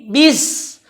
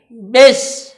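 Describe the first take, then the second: First: The vowel sounds like i. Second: The vowel sounds like e. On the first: The speaker calls it right. "tapi bis" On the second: The speaker calls it wrong. "maka bacaannya tadi miring ke huruf e"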